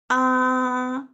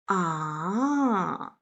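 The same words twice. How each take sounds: First: It is a plain open-mouthed ah sound. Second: The pitch falls down and then rises up. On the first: "open mouth sound" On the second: "thinking sound"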